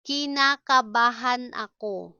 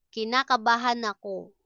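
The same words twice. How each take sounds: First: Deliberate, syllable by syllable. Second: Said in the usual way. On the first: Shown as a demonstration. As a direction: break the long word up for learners. Slow model, then natural speed.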